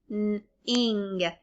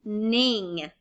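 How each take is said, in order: First: "N-ing" split into a held N, then ING; sounded out. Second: Said in the usual way. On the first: Shown as a demonstration. Teacher giving the second syllable, "N-ing" in two separate sounds. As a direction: pause after the N in "N-ing". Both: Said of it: "Second syllable".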